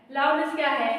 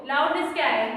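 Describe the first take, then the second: No difference in how they are said.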